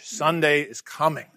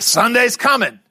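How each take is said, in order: First: It is said in a weary, dreading way. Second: It is said in a hopeful, celebratory way. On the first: A looming deadline is approaching. "For the preacher, it takes on a little different connotation" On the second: Something good is on the way. "that's supposed to be good news"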